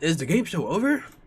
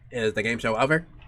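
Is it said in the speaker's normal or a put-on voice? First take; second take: put-on; normal. First: It is said in a put-on character voice. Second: It is said in the speaker's normal voice.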